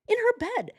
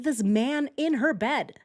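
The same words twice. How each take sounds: First: "her bed" jumps far higher in disbelief; repeated "in her bed" in a high, stunned voice; shocked stress on "her bed". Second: Said in the usual way. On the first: Shown as a demonstration.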